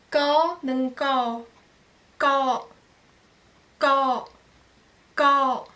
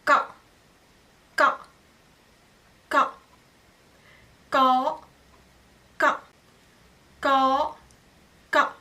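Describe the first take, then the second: First: «ka» à voyelle longue, tenue. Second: «ka» bref, coupé net; voyelle brève. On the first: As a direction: tenir le «ka» long. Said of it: "d'abord vous prononcer, euh, sans banta". («ka» long, sans banta) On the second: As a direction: couper le «ka» court. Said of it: "Avec banta". («ka» bref avec banta) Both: Shown as a demonstration.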